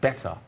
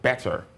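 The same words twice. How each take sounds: First: It is said in a standard, non-rhotic accent. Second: It is said with a rhotic R at the end. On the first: "that's a standard pronunciation" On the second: "consider the rhotic factor"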